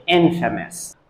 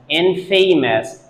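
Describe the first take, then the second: First: INFAMOUS said IN-fuh-mus; correct pronunciation. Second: INFAMOUS drawn out as in-FAY-mus; wrong pronunciation. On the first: Teacher corrects the students' version, correct pronunciation. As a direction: stress IN and reduce the middle of infamous. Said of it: "We have to say". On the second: Teacher shows what we do not say, wrong pronunciation. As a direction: rhyme infamous with "famous", slowly. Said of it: "totally a wrong pronunciation". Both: Shown as a demonstration.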